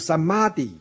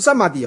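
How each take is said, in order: First: The second syllable's vowel is long. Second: The second syllable's vowel is short. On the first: The speaker calls it right. "是samadhi 啊、 哦， 那个a 上面不是有一横吗？ 对不对？ 那表示长音或是重音啊" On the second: The speaker calls it wrong. "不是samadhi 哦"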